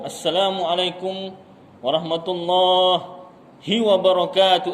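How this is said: The pause breaks a word after its middle part. "Eh, salah. Oh, dah henti Allah, tak boleh ambil balik hi itu"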